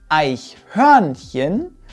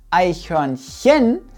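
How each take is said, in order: First: The stress is on the second syllable. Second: The stress is on the third syllable. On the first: "Es heißt also nicht Eichhörnchen" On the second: "es heißt auch nicht Eichhörnchen"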